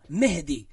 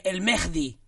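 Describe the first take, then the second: First: "Mehdi" with a light breathed h, no rasp; soft H. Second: "Mehdi" with a raspy j before the d; hard H. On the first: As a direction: say "Mehdi" softly as Me-hdi. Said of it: "No, el Mehdi no". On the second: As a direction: say "Mehdi" as Mejdi. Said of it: "el Mehdi no". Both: Shown as a demonstration.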